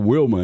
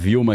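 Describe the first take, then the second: First: The name begins with a W sound. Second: The name begins with a V sound. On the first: This is how it is said in the United States. "lá é o Wilma ... O W tem som de U" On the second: This is how Brazilians say it. "gente fala Vilma"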